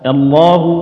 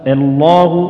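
No difference in how they are said.

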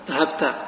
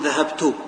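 First: The final t is followed by a. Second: The final t is followed by u. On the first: "وبالفتحة" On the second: "أحركها بالضم"

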